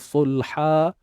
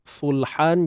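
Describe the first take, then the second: First: The word ends with a long a vowel. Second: The word ends with an n sound. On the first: "bunyi mat dua harakat" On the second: "kita gantikan tanwin itu kepada bunyi mat dua harakat"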